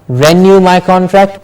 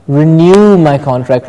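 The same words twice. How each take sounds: First: Renew said "REN-yoo" in renew my contract; first syllable of renew pushed; wrong stress. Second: Renew said "ri-NEW" in renew my contract; right stress. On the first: Teacher showing the wrong renew in a phrase, stress on REN. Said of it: "Not renew my contract". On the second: Teacher modelling renew in a phrase, stress on NEW. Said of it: "but renew my contract". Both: Shown as a demonstration.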